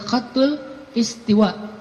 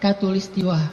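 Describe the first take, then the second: First: It begins with a harsh throaty kh sound. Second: It begins with a plain k sound. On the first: This is the original Arabic form. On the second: This is the Indonesian adapted form. "jadi bahasa Indonesia katulistiwa"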